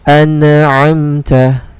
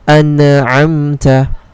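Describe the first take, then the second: Both takes have the same delivery.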